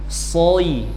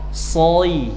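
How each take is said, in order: No difference in how they are said.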